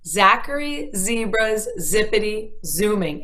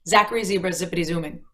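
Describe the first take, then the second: First: The phrase is said at a slower pace. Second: The phrase is said at a faster pace.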